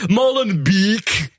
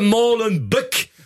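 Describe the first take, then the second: First: The name is said with an English accent. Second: The name is said with a French accent. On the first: "et les Anglais, Molenbeek" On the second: "Les Français, ils disent Molenbeek"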